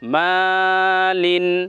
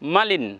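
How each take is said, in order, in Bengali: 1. প্রথম স্বরধ্বনিটি টেনে দীর্ঘ করে বলা হয়। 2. প্রথম স্বরধ্বনিটি হ্রস্ব, টেনে বলা হয় না। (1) "এখানে একটু টান লম্বা করতে হবে" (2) "এমনটা করা যাবে না যে"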